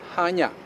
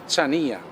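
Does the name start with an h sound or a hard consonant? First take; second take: h sound; hard consonant. First: The name starts with a soft h sound. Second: The name starts with a hard consonant sound. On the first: The speaker calls it right. "The C is silent, and the proper way to say the word is Hanya" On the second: The speaker calls it wrong. "it makes perfect sense that you say Chania, which simply confuses everyone"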